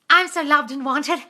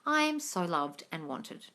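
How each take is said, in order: First: It is said with forced excitement. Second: It is said plainly, matter-of-fact.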